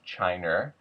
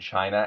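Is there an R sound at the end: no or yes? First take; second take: yes; no. First: The word ends with an added R sound. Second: The word ends in a plain ah vowel.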